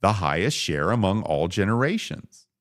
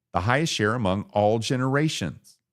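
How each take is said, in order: Both takes have the same delivery.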